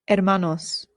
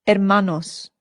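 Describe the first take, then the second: The two takes are said the same way.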